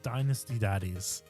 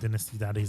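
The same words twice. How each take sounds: First: It is said in an American accent. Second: It is said in a British accent. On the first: "if you're in America" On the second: "if you're in the U K"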